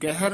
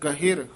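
First: The h has no i vowel after it. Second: The h has an i vowel after it. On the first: The speaker calls it wrong. "ਗਹਿਰ ਨਹੀਂ ਕਹਿਣਾ ਹੈ" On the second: The speaker calls it right. "ਹਾਹੇ ਦੀ ਸਿਹਾਰੀ ਲਾ ਕੇ ਉਚਾਰਨ ਕਰਨਾ ਹੈ"

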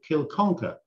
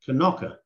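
First: The name is said just as it is spelled. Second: The name is said in a shortened local form.

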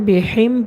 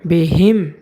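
First: The h sound is weak and unclear. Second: The h sound is clear from the throat. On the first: The speaker calls it wrong. "অনেকে এখানে বিহিম পড়ে, যদি বিহিম পড়া হয় তাহলে সহি শুদ্ধ হবে না" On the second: The speaker calls it right. "হলকে শুরু থেকে স্পষ্টভাবে উচ্চারণ করতে হবে"

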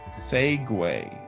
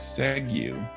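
First: The word ends with a 'way' sound. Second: The word ends without a 'way' sound. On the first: The speaker calls it right. "but it's actually segue" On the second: The speaker calls it wrong. "So you might think segue"

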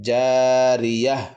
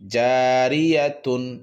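First: The word ends with a silent h sound. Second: The word ends with a full tun syllable. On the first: The reader stops at the end of the verse. "গুল তাটি হা সাকিন হয়ে গেল" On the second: The reader continues without stopping. "যেমন জারিয়াতুন"

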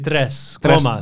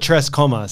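First: The R in Tres is rolled. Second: The R in Tres is plain, not rolled. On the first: "you're supposed to say Tres Comas" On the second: "I call it Tres Comas"

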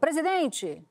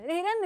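First: It is said in plain Brazilian Portuguese. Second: It is said fast in a mock Spanish accent.

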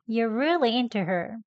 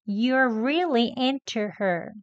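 First: The to in into is said short and quick. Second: The t in into is released clearly and slowly. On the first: "다음은 짧게 합니다" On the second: "천천히 into 합니다"

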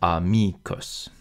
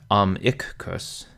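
First: The m opens the second syllable: a-mi-cus. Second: The m closes the first syllable: am-i-cus. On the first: The speaker calls it right. "but amicus. And I apologize for overstressing each syllable" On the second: The speaker calls it wrong. "Not amicus"

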